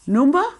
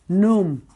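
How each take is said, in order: First: The word is said in full, two syllables. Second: The word is clipped to one short syllable.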